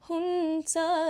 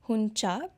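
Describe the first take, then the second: First: The middle consonant sounds closer to 'ts'. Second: The middle consonant sounds like 'ch'. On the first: This is how Nepali says it. The speaker calls it right. "more like the Marathi tsa, but not as intense" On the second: This is how Hindi would say it. The speaker calls it wrong. "in Hindi it would be huncha"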